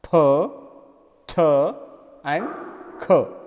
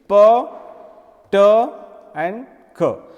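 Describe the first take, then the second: First: The consonants are said the English way. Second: The consonants are said the Hindi way. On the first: "in English, P, T and K are different. They pronounce like" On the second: "In Hindi, it is"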